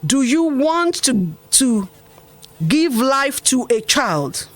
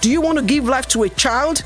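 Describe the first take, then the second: First: It is spoken very slowly. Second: It is spoken at a normal speed.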